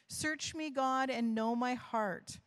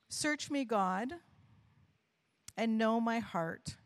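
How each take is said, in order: First: It is read at a normal pace. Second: It is read more slowly.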